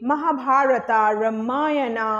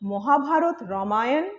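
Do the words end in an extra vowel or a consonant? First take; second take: extra vowel; consonant. First: Each word ends with an extra 'a' vowel. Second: Each word ends on a consonant sound. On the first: The speaker calls it wrong. "it's absolutely wrong" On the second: The speaker calls it right. "তাহলে আমাকে সেটাই বলা উচিত"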